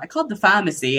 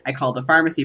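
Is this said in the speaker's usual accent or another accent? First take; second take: other accent; usual accent. First: It is said in a picked-up foreign accent. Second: It is said in the speaker's usual accent. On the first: The accent was absorbed from people the speaker works with. "but it comes out, ... That's not how I say that word" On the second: This is how the speaker normally talks. "I've been talking about"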